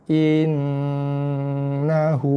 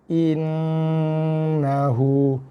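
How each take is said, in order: Both takes have the same delivery.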